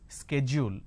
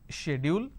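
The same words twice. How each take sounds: First: It is said with an American pronunciation. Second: It is said with a British pronunciation. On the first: "the American pronunciation is schedule" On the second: "So the British pronunciation is schedule"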